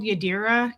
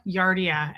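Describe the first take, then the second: First: Said in the usual way. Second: Yadira mangled into "Yardia"; mispronounced name. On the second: Retold or imitated. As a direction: say "Yardia" with the R moved up before the D. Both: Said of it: "People were mispronouncing names by accident".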